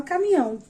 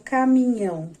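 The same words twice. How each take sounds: First: "caminhão" said as "camião", with the nh sound dropped; child's pronunciation. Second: Said in the usual way. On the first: Shown as a demonstration. Teacher imitating how the child says "caminhão" without the nh. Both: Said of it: "como é que ela fala caminhão?".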